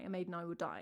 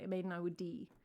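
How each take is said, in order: First: The last word rhymes with 'sky'. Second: The last word rhymes with 'see'. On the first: The speaker calls it wrong. "like for die" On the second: The speaker calls it right. "They say D"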